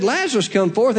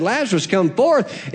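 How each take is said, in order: First: Lazarus lifted with a rising stress, come forth after it. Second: Said in the usual way. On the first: Shown as a demonstration. Pastor showing Jesus naming only Lazarus, stress on Lazarus. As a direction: lean on "Lazarus" to single him out. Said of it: "If he hadn't have said". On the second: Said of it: "every dead person there would have gotten up".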